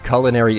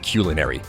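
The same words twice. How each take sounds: First: The word is said the popular, non-dictionary way. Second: The word is said the dictionary, standard way. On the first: The speaker calls it wrong. "technically the improper pronunciation, but it's uh, it's the popularized uh, way to pronounce the word" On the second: The speaker calls it right. "it's actually said culinary"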